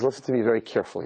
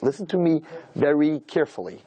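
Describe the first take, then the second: First: Said in the usual way. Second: "Listen to me very carefully" drawn out word by word; slow, deliberate warning. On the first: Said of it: "He says". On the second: Retold or imitated. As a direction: imitate a father's measured warning, taking twice the time. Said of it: "This is exactly how he said it".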